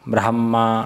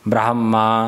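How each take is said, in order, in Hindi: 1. ह ध्वनि म से पहले आती है। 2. ह ध्वनि म से पहले आती है।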